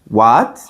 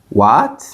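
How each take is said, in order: Both takes have the same delivery.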